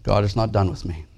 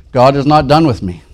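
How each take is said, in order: First: Quiet restatement. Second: God is not done with me called out loud and high, stress on done; proclaimed phrase. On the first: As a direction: let it settle, quietly. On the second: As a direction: proclaim it boldly, leaning on done. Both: Shown as a demonstration. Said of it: "repeats the phrase".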